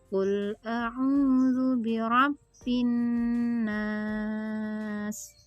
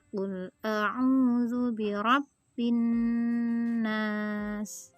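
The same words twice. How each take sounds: First: The final vowel is held for six counts. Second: The final vowel is held for two counts. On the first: "Lebih panjang. Bila enam harokat" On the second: "Kita praktekkan ya dengan dua harokat"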